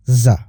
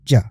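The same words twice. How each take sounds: First: ज as a buzzing "za", tongue close to the teeth without touching; voiced "zza" for ज; vibrating Z sound. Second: ज as a hard J, tongue touching behind the upper teeth; crisp "ja" for ज, no Z buzz; J sound. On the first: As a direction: say ज as Z, air pushed outward with vibration. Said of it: "हवा निकालते हुए मेरे साथ कहें". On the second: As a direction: say ज as "ja", a stopped J with air released. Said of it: "मुंह से हवा निकालते हुए मेरे साथ कहिए". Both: Shown as a demonstration.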